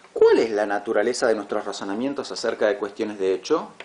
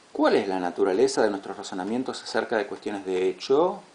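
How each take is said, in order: No difference in how they are said.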